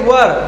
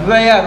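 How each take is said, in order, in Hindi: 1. यह स्वर 'her' के स्वर जैसा लगता है। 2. यह स्वर 'air' के स्वर जैसा लगता है। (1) "सही उच्चारण उसका वर होता है।" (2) "वेयर नहीं"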